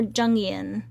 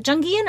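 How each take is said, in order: First: JUNGIAN with no hard g; alternative pronunciation. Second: JUNGIAN with a hard g after the ng; pronunciation query. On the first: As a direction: say Jungian as "JUNG-ee-an". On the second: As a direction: say Jungian as "JUNG-ghee-an". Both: Shown as a demonstration. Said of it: "Is it Jungian or Jungian".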